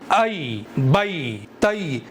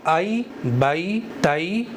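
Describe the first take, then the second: First: The syllables are said with an abrupt jerk. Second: The syllables are said gently and smoothly. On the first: The speaker calls it wrong. "झटके के साथ में पढ़ना होता है ... इस तरह से झटका नहीं लगाना है" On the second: The speaker calls it right. "Softly पढ़ना है, नरमी से पढ़ना है"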